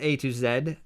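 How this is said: The letter Z is said the British way.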